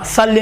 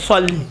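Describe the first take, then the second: First: صلی with plain light s, "salli"; wrongly thin. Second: صلی with thick rounded "swalli"; emphatic s in صلی; full-mouthed first syllable of صلی; heavy saad. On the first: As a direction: flatten صلی to an unrounded "sa". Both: Shown as a demonstration. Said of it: "صلی نہیں ہے".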